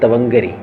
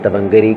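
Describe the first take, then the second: Both takes have the same delivery.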